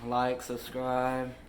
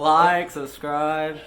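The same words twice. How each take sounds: First: It is said flatly, without enthusiasm. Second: It is said with enthusiasm.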